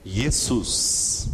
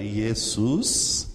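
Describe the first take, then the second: First: Diga "Jesus" com j chiado, "jezus"; "Jesus" à portuguesa, com ʒ. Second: Diga "Jesus" começando com som de i, devagar; "Jesus" como "iesus", lento; Jesus com i inicial. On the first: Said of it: "passa pro português". (pronúncia portuguesa de "Jesus") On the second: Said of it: "vamos lembrar aqui". (pronúncia grega de "Jesus", com i) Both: Shown as a demonstration.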